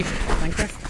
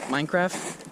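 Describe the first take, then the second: First: High questioning. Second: Said in the usual way. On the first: Acted. Repeated joke, higher.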